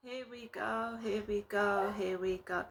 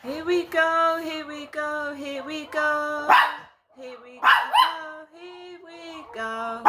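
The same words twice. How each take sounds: First: Said in the usual way. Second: High, slow, drawn-out calling; loud, high refrain, dragging the vowels; drawn-out exclamation. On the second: Real, not acted. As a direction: stretch each word out, pitched well up. Singsong reaction as dogs are set off.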